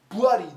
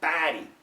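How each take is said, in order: First: It is said in a New York accent. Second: It is said in a Chicago accent. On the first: "in New York, everybody, buddy" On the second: "But in Chicago, baddie"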